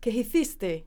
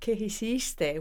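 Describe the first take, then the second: First: The c in hiciste sounds like th. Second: The c in hiciste sounds like s. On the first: "Castilian Spanish" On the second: "Mexican Spanish"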